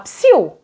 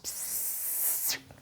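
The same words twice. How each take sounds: First: The word is said short and quick. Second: The word is drawn out and held long. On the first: It calls someone's attention. "uma coisa eu fazia assim, ó, psiu, é um chamamento" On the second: It asks for silence. "de uma forma mais arrastada, mais demorada"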